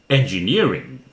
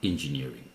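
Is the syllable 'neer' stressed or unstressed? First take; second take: stressed; unstressed. First: The syllable 'neer' is said louder. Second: The syllable 'neer' is not stressed. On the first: The speaker calls it right. "Nearing louder" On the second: The speaker calls it wrong. "Not engineering"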